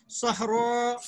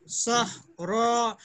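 First: Said in the usual way. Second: सहरा drawn out syllable by syllable; slow demo. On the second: Shown as a demonstration. Teacher slowing सहरा down so students catch it. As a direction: stretch the word for the class. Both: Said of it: "इसकी जमा भी बनेगी".

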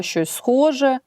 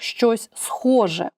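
First: «щось схоже» said higher with схоже marked; stress on схоже. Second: «щось схоже» drawn out, схоже leaned on; slow stress on схоже. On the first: Teacher pointing class to «щось схоже», higher stress. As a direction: lift «щось схоже» and mark схоже. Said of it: "до слова". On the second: Teacher to class, dwelling on «щось схоже» slowly. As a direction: stretch «щось схоже» and land on схоже. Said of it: "ще один додаток «щось схоже»". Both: Shown as a demonstration.

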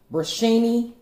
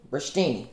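First: "Brushtini" tried out high and unsure, like a question; testing the word "Brushtini" with a high-pitched guess; unsure pronunciation. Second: Landing on "brushtini" with a quiet, final drop; settled pronunciation. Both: Shown as a demonstration. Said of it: "how in the world do you say that word?".

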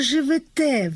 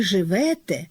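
First: "живете" stressed on the final те; stress on last syllable. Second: "живете" stressed on the middle syllable ве. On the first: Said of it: "літературний наголос на останньому складі". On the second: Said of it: "заримував неправильний наголос". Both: Shown as a demonstration.

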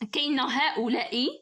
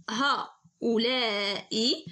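First: Said in the usual way. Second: هؤلاء stretched very slowly so the hidden long alif is heard; teacher dragging هؤلاء out to show the unwritten alif; drawn-out demo word. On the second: Shown as a demonstration. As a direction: sound out هؤلاء syllable by syllable, slowly. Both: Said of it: "كما كتشوفوا هذه بحال كنطق الألف".

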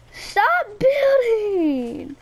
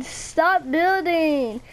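First: High, very drawn-out wail sliding down; exasperated whine. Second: Slow, stretched STOP BUILDING; drawn-out protest. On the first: Gamer begging a friend to stop building, exasperated whine. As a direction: start high and stretch it into a whining plea. Repeats the protest, escalating. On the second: Gamer protesting a friend's building, drawn-out complaint. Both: Real, not acted.

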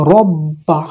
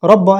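First: রব্বা with a thin, light r and no doubling; wrong thin r. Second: রব্বা with a thick r and a pressed, doubled b; heavy doubled r. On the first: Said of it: "এরকম না বলে". (ভুল: পাতলা র দিয়ে রব্বা) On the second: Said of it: "এরকম না বলে রব্বা". (সঠিক: মোটা র আর চাপ দেওয়া ব্ব দিয়ে রব্বা) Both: Shown as a demonstration.

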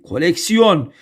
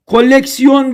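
First: Koleksiyon with a short, single L. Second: Koleksiyon with a long, doubled L; wrong double L. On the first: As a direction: keep the L of koleksiyon brief. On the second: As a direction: hold the L of Koleksiyon: "kol-leksiyon". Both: Shown as a demonstration. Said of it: "Tek L ile".

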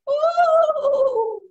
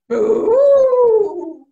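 First: High, loud ghostly ooh; Mama Ghost wail. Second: Booming, drawn-out ghost call; Papa Ghost wail. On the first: Spider mimics Mama Ghost, high wail. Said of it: "Mama Ghost goes". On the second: Spider mimics Papa Ghost, loud wail. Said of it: "Papa Ghost goes". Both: Retold or imitated.

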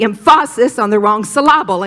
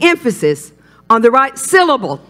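First: Em-FAH-sis and sil-LAH-bul for "emphasis" and "syllable"; forceful misplaced stress on the middle of "emphasis" and "syllable"; wrong-syllable stress. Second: EMphasis and SYLlable, first syllables punched; firm, insistent "emphasis" and "syllable" stressed at the front; right-syllable stress. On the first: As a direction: punch the second syllable of "emphasis" and "syllable". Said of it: "put the emphasis on the wrong syllable". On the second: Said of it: "keep the emphasis on the right syllable". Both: Shown as a demonstration.

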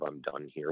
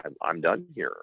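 First: Soft, settled, to himself; softly resolved, a private finish; quiet satisfaction. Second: Said in the usual way. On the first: Retold or imitated. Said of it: "the satisfaction of". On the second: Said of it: "I said".

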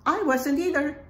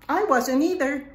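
The two takes are said the same way.

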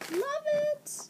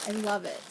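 First: Very high squeaky love it; excited squeal. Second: Said in the usual way. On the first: Real, not acted. Unboxing a friend's gift package, high excited squeal. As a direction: squeal it with delight.

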